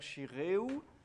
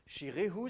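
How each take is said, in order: First: The h sound is left out. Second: The h sound is fully pronounced.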